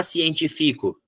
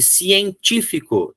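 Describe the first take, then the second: First: "científico" said as cien-ti-FI-co; wrong stress on FI. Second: "científico" slow and high, stressed cien-TÍ-fi-co. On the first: Teacher showing what he won't say, "científico" stressed cien-ti-FI-co. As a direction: say "científico" with stress moved to the second-last syllable. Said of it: "Eu não vou falar científico". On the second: Teacher showing students the right syllable, "científico" slowly stressed on TÍ. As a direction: stretch "científico", punching the TÍ. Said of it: "eu quero que seja a terceira". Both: Shown as a demonstration.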